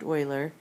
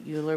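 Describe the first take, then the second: First: Euler said "OY-ler"; Euler rhyming with boiler; Euler as Oiler. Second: Euler said "YOO-ler"; Euler rhyming with ruler; Euler as Yooler. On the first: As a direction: say Euler with an opening "oy" sound. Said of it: "pronounced Euler". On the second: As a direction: say Euler with an opening "you" sound. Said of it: "a lot of people pronounce it". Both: Shown as a demonstration.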